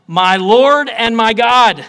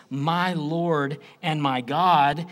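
First: Thomas's cry, slow and much louder; loud exclamation. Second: Slow and earnest; reverent. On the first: Preacher voicing Thomas's cry, slow and loud. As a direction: proclaim it slowly at full voice. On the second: Preacher showing Thomas's words as prayer, slow. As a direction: address it to Jesus, slowly. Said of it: "he's saying this to Jesus". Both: Acted.

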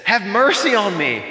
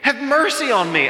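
First: An earnest plea for mercy, a little louder; pleading cry. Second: Rising desperate plea. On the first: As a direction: beg for mercy as Job would. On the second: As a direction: let the plea climb into a cry. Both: Retold or imitated. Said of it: "Job is just weeping and he's crying out".

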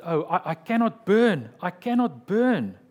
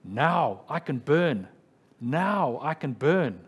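First: Louder and higher, crying out that he cannot burn; a condemned man's loud, anguished cry; retold desperate shout. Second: A martyr's slow, triumphant proclamation; mock triumphant cry. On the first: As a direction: shout it in dread before the stake. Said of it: "he shouted". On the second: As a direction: declare it slowly, victorious at last. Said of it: "he cried out triumphantly".

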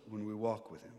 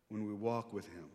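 Both takes have the same delivery.

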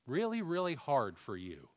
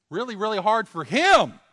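First: Said in the usual way. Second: Much higher and louder, pressing the point; loud emphatic cry. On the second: Real, not acted. Preacher to congregation, loud emphatic cry. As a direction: raise the voice and hammer it home.

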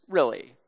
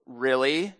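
First: Low, soft, falling certainty; quietly sure of himself, dropping at the end; confident. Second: Low, soft questioning rise; quiet, doubting challenge to a student; challenging question. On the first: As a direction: answer it as a settled fact. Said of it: "my fellow student said with confidence". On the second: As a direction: question him quietly with a lifting end. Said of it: "immediately shot a look at him". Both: Retold or imitated.

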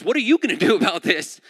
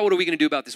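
First: YOU pushed higher and louder; stress on YOU. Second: Said in the usual way. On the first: Acted. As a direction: throw it back with a loud, hard hit on "you". Philip throws question back, stressing you.

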